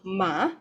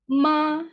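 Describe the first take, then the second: First: The pitch rises from middle to high. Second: The pitch stays high and level. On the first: "from the middle and then to the top" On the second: "the first tone will be high and flat"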